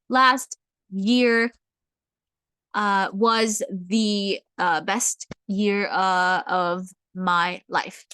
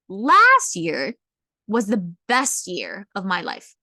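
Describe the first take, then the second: First: It is broken up with hesitant pauses throughout. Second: It flows, with emphasis on the opening words. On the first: The speaker is nervous and lacks practice. The speaker calls it wrong. "it will come out a little bit robotic" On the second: The timing is highlighted for dramatic effect. The speaker calls it right. "if I highlight the first word"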